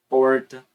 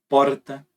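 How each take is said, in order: First: The R curls back, a retroflex sound. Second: The R is a rolled, multiple-tap trill. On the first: "Você tem o retroflexo" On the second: "Você tem o tape múltiplo"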